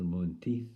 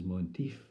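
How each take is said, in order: First: Said in the usual way. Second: "Monteith" with f for final th; impaired speech. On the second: Acted. Poet naming the pastor the couple's way, impaired "Monteef". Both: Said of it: "to them he was known as".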